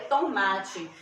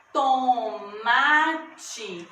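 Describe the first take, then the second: First: Said in the usual way. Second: To-ma-te in three long, separate beats; split into syllables. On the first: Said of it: "veja quando eu vou pronunciar". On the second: Shown as a demonstration. Teacher showing three syllables in tomate, stretched out. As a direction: sound out tomate slowly, syllable by syllable. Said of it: "Eu abro minha boca três vezes pra pronunciar".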